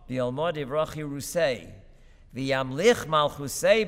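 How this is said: There is a clear pause after yirusei. The speaker calls it right. "there should be a serious pause after kirusei"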